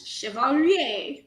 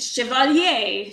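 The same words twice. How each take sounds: First: Chevalier repeated slowly, shih-vah-LYAY; slow teaching repeat of Chevalier; French pronunciation. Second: Chevalier said slowly in French, shih-vah-LYAY; French pronunciation. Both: Shown as a demonstration. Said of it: "pronounce for me".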